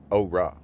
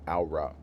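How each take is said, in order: First: "Aura" said as "oh-rah"; low, isolated "Aura" starting on "oh"; "oh" pronunciation. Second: "Aura" said as "ow-rah"; low, softer "Aura" starting on "ow"; "ow" pronunciation. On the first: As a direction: say "Aura" with a long "oh" first syllable. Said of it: "my brain wants to say". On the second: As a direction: say "Aura" with an "ow" first syllable. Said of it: "I'm trying to say aura". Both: Shown as a demonstration.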